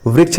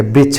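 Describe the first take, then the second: First: Said in the usual way. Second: "वृक्ष" as brichchh, b for v; Chhattisgarhi pronunciation. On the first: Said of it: "व के स्थान पर ब". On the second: Shown as a demonstration. Teacher corrects to the dialect form, "वृक्ष" said brichchh. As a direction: say "वृक्ष" with opening b and closing chh. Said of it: "वृक्ष नहीं कहेंगे".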